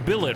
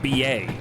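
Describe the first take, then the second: First: The word ends with a clear t sound. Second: The word ends in an ay vowel, no t. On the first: The speaker calls it right. "it is pronounced billet, right?" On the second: The speaker calls it wrong. "It's not something weird like B A"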